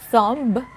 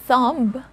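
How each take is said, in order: The two takes are said the same way.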